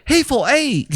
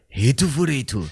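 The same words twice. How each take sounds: First: It is said in a Chinese accent. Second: It is said in a Japanese accent.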